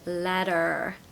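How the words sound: The final R is clearly pronounced. "in the American accent they have a lot of R. So they say letter"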